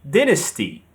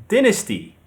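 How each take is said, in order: The two takes are said the same way.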